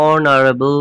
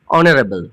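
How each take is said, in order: First: অনারেবল drawn out slowly, starting on o with no h; slow demo pronunciation. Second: Said in the usual way. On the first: Shown as a demonstration. Teacher slowly showing students how অনারেবল starts on o. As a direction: spell out অনারেবল slowly for the class. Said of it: "উচ্চারণটা শুরু হচ্ছে ও এন ও দিয়ে". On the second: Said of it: "পরেরটা দেখো".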